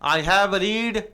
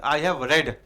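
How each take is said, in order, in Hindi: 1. 'Read' का उच्चारण लंबे 'ee' स्वर के साथ होता है। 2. 'Read' का उच्चारण छोटे 'e' स्वर के साथ होता है। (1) "गलत" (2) "रीड को रेड बोलते हैं"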